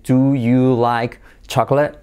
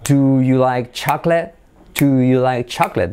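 First: Slow "Do... you... like... chocolate", each word apart; careful, unlinked word-by-word question; separate words. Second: "Do you like" linked smoothly into one run; linked, rhythmic "Do you like chocolate"; joined words. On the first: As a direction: leave gaps between "Do", "you", "like", "chocolate". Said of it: "pero el nativo no dice así". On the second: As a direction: glide from "Do" through "chocolate" without gaps. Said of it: "el nativo tiende a unir todo". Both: Shown as a demonstration.

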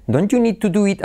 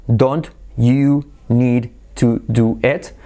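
First: "Don't you need to do it" run together, don't-you as donchu; linked words. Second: Slow, every word separated; DON'T YOU NEED TO DO IT with each word fully sounded, slowly. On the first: Teacher shows students natural linking, run together. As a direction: link DON'T YOU NEED TO DO IT in one flow, higher pitch. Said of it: "la T con la Y se convierte". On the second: Teacher shows students the unlinked form, slow and separate. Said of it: "De decir". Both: Shown as a demonstration.

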